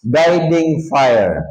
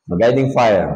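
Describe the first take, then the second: First: Guiding fire drawn out slowly; slow emphasis. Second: Said in the usual way. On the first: Shown as a demonstration. Preacher naming the fire to the congregation, slow and stressed. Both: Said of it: "Ito ay tinatawag na".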